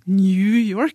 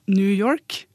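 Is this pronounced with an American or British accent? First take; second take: British; American. First: It is said with a British English pronunciation. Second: It is said with an American English pronunciation. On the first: The speaker is older. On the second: The speaker is young.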